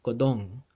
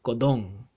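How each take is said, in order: Both takes have the same delivery.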